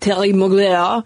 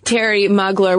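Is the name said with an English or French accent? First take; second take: French; English. First: The name is said in a fancy French accent. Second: The name is said in a plain English accent.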